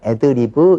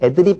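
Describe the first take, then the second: First: It ends with an added vowel, four syllables. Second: It ends in a closed b sound, three syllables. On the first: The speaker calls it right. "B가 유성음이니까 애드리브 이렇게 하셔야 됩니다" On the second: The speaker calls it wrong. "잘못된 말이고요"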